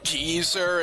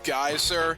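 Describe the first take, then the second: First: The first vowel sounds like 'ee'. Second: The first vowel sounds like 'eye'. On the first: "heard somebody pronounce it Geezer" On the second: "instead of Geyser"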